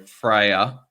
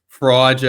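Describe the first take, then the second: First: The name sounds like 'Freya'. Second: The name sounds like 'Fraser'. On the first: The speaker calls it right. "That's how you pronounce it" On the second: The speaker calls it wrong. "I've just always been saying Fraser"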